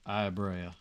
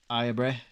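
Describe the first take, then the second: First: The surname ends in two vowel sounds. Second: The surname ends in a single 'eh' sound. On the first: The speaker calls it wrong. "I keep saying Brea" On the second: The speaker calls it right. "the B R E A makes a eh sound"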